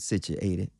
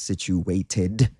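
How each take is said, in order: First: It is said with a vernacular dialect pronunciation. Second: It is said with a standard English pronunciation. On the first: "I said situated instead of situated" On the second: "instead of situated"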